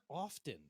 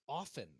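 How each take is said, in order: First: The word is said with a clear T sound. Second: The word is said with no T sound. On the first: The speaker calls it wrong. "It's not often" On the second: The speaker calls it right. "You don't pronounce the T"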